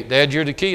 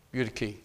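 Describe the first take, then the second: First: Dad, you're the key said louder, rising on key; emphatic. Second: Dropped low and soft, You're the key said almost under breath; quiet. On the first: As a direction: push key up at the end. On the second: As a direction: hush the words You're the key. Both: Shown as a demonstration.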